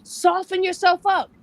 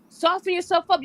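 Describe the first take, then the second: First: "Soften yourself up" drawn out slowly, a little louder and higher; slow emphatic "Soften yourself up"; slow soft coaching. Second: Said in the usual way. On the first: Shown as a demonstration. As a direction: coach her gently to ease up. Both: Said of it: "you don't have to be tough".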